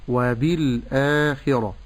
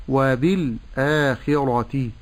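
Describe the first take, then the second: The two takes are said the same way.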